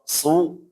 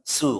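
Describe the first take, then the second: First: The s sound is thick and heavy. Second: The s sound is thin and light. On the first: The speaker calls it right. "Tapi kalau su, nah dia kan beda ya. Su dia lebih tebal" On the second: The speaker calls it wrong. "Jadi bukan su, kalau su berarti sin ya"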